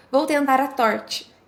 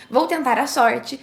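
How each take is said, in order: First: "torte" said with T as its first sound; deliberate slip, T opening "torte"; slip of the tongue. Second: Said in the usual way. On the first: Shown as a demonstration. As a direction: say "torte" slowly, with a T where an S was meant. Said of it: "mas enrolou a língua e acabou dizendo". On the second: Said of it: "Imagine que você desejava pronunciar a frase".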